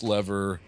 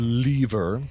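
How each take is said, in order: First: It is said with an American pronunciation. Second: It is said with a British pronunciation.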